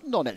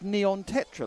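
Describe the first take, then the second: First: The name is squeezed into one short word. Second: The name is said as two separate words. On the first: The speaker calls it wrong. "It's not Nonetra" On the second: The speaker calls it right. "it's Neon Tetra, like one of them fish"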